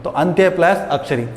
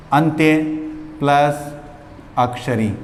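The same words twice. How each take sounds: First: Said in the usual way. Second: अंत्य ... plus ... अक्षरी with long pauses between; split into parts. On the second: Shown as a demonstration. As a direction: spell out अंत्य, plus, अक्षरी one piece at a time, like dictation. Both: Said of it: "एक का मैं define करके बता रहा हूँ".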